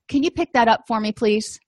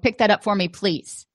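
First: It is said in a polite, gentle tone. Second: It is said in a snarky, irritable tone.

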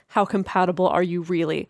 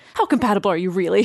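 First: It is read in a plain, neutral tone. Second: It is said in an intense, accusatory tone.

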